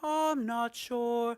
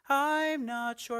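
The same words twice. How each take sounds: First: The vowel in I'm stays as one pure vowel. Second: The vowel in I'm glides as a diphthong. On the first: The speaker calls it wrong. "rather than" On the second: The speaker calls it right. "We're definitely going through the diphthong in I'm"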